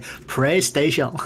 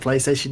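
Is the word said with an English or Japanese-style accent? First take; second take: Japanese-style; English. First: It is said with Japanese-style sounds. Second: It is said with plain English sounds. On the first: "you have to say" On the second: "instead of"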